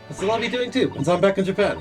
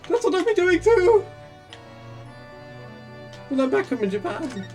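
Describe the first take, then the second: First: It is said in the speaker's natural voice. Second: It is said in an imitated, put-on voice. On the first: The speaker calls it wrong. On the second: The speaker calls it right.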